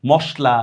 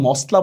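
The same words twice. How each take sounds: First: মশলা with "sh" before the l; sh sound. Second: মশলা with a thin dental "s"; wrong s sound. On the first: Teacher models the right sound for students, মশলা with "sh". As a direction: say মশলা as "moshla". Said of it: "উচ্চারণ যদি স্বর মতো হয়". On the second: Teacher shows students what not to say, মশলা with "s". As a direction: say মশলা as "mosla", no "sh". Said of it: "মশলা বলতে পারবে না". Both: Shown as a demonstration.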